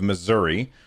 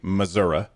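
First: It is said in a general, standard pronunciation. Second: It is said in the local Missouri pronunciation.

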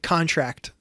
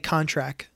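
First: The final T is clearly pronounced. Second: The final T is dropped. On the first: "A hard T, like contract" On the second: "They'll say contract"

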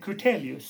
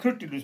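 First: The name is said with four syllables, Kur-te-li-us. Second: The name is said with three syllables, Kur-ti-lus. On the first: This is the form the name actually has. The speaker calls it right. "men det heter Kurtelius" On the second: This is the form the speaker wrongly believed. The speaker calls it wrong. "Jeg trodde det heter Kurtilus"

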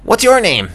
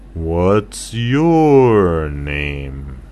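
First: It is said fast. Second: It is said slowly.

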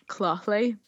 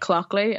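First: The middle consonant is a throaty ch sound. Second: The middle consonant is a hard k sound. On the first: This is the name's own pronunciation. "It's pronounced like Clothley. Like, you know, like a lock" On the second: This is how most people say the name. "But people just say, like, Clockley, and I'm happy with that"

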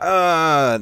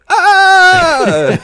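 First: It is said at a normal, lower pitch. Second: It is said an octave higher, like a scream.

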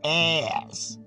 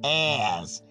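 First: It is said in a North American accent. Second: It is said in a North American accent.

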